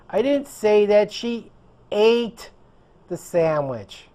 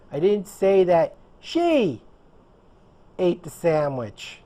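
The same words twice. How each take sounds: First: The word "ate" carries the stress. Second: The word "she" carries the stress. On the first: She did something else with it. "She did something else with the sandwich" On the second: Someone else did it. "I said that someone else did it"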